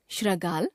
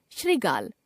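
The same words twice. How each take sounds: First: श्रृगाल as "shra-gaal"; mispronounced ri. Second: Said in the usual way. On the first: Shown as a demonstration. Teacher showing a common error, श्रृगाल with ra for ri. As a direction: put "ra" for "ri" in श्रृगाल. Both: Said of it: "र, री संबंधी अशुद्धियां".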